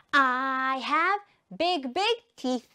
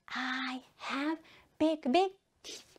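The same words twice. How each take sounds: First: Drawn-out "I have", then punchy words; slow repeat-after-me delivery; slow model sentence. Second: Soft, near-whispered echo; quiet repeat-after-me line; hushed repeat. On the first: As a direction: chant it slowly for learners. Teacher chants with pupils. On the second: Hushed repeat after louder take. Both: Shown as a demonstration.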